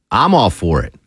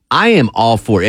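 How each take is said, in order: First: Said in the usual way. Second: "am" pulled apart and leaned on; "I am" said in full with weight on "am"; stress on am. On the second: Real, not acted. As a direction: give the word "am" a firm separate beat.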